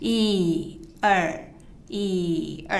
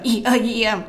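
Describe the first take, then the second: First: It is counted slowly. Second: It is counted fast.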